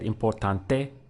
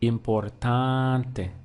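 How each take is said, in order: First: The stress falls on a different syllable. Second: The stress is on the second-to-last syllable. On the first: The speaker calls it wrong. "it would sound weird" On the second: The speaker calls it right. "our stress comes on the one before last"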